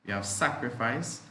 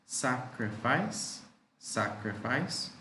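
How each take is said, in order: First: Said in the usual way. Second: Sacrifice drawn out to show three syllables; teacher stretching out sacrifice; slow, syllable by syllable. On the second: Shown as a demonstration. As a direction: model it slowly for the class. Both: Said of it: "Three syllables there".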